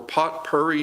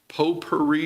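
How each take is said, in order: First: It is said in a local regional way. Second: It is said in the standard way.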